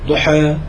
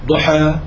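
The two takes are said the same way.

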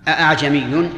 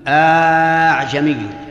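First: The second hamza is said as a glottal stop. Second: The hamza becomes a long vowel held extra long. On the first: "بتحقيق الهمزة الثانية" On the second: "وقلبها ألفا ... بإشباع"

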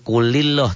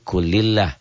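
First: The l is heavy, with a dark o-like vowel. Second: The l is light, with a clear a-like vowel. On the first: The speaker calls it wrong. "Jangan kulilloh" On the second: The speaker calls it right. "tapi kulillah"

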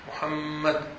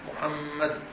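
First: The doubled m is held with a nasal hum. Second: The same.

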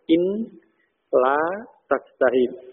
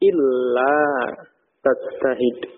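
First: The n is heard separately before la. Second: The n merges into the l as illa. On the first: "Jadi asalnya in la tajtahid" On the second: "Nunnya masuk ke lam dalam pengucapan. Sehingga menjadi illa tajtahid"

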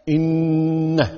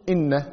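First: The n is doubled and held with nasalization. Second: The n is short without a held nasal sound. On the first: The speaker calls it right. "لأنه ما حرفان إن" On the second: The speaker calls it wrong. "ما يصير تقول إن"

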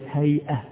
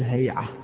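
First: The middle sound is a glottal stop. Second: The middle sound is a pharyngeal ain. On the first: This is the original standard form. "مثل كلمة هيئة" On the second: This is how some dialect speakers say it. "بعض العوام يقلب الهمزة إلى عين فيقول هيئة"

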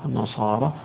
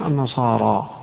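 First: The final long vowel is a fully open 'a'. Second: The final long vowel is a fully open 'a'.

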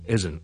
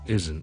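No difference in how they are said.

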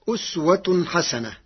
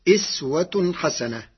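First: The first vowel of the word is 'u'. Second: The first vowel of the word is 'i'.

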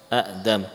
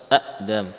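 The two takes are said the same way.

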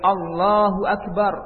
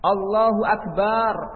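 First: The vowel after the b is kept short. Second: The vowel after the b is drawn out long. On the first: It keeps the meaning that God is greatest. The speaker calls it right. "harus tepat ketika melafazkan takbir" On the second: It turns the word into a plural meaning musical instruments. The speaker calls it wrong. "ba-nya panjang"

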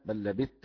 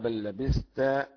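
First: The th sound merges into the t. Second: The th sound is pronounced before the t.

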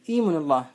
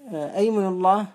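First: The phrase begins with an 'i' vowel. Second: The phrase begins with an 'a' vowel. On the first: "يجوز أن تقول إيمن الله" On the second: "فإن الفتح راجح"

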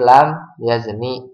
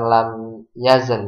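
First: The last word ends with a final vowel. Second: The last word ends on a bare consonant. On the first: The speaker calls it right. "Karena akhirnya enggak dimatiin, tapi lam yazni" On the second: The speaker calls it wrong. "bukan lam yazen"

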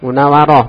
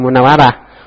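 First: The final syllable is said with a rounded o vowel. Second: The final syllable is said with an open a vowel. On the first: The speaker calls it right. "munawaroh pakai roh, rohnya di pakai o ya" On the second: The speaker calls it wrong. "Jangan munawarah"

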